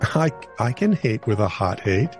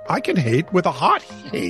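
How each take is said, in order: First: It is said in a nicer tone. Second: It is said in a hostile tone.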